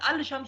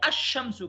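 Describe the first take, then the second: First: The L is pronounced before the sh sound. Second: The L is dropped and the sh is doubled. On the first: The speaker calls it wrong. "अल अल शम्स हम नहीं कहेंगे" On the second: The speaker calls it right. "शीन दो दफा हो जाएगा"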